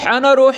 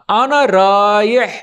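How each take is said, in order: First: The second word sounds like 'rooh'. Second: The second word sounds like 'raih'. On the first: The speaker calls it wrong. "آنا روح آنا روح نہیں بولنا" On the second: The speaker calls it right. "را الف یا ہا"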